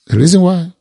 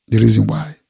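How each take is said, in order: First: Higher and louder, pressing the point; louder emphatic repeat. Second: Said in the usual way. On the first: Acted. Preacher driving the point home to the congregation, louder and higher. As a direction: hit it again, harder.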